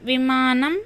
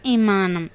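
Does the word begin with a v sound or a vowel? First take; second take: v sound; vowel. First: The word begins with a v consonant. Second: The word begins directly with a vowel. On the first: The speaker calls it right. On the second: The speaker calls it wrong.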